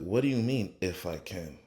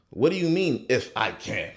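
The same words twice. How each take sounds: First: Said in the usual way. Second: Incredulous Jesus. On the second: Acted. Jesus answers doubting father.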